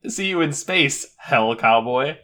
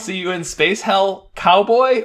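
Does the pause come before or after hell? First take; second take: before; after. First: The pause comes before the word hell. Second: The pause comes after the word hell.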